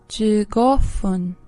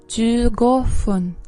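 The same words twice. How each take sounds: No difference in how they are said.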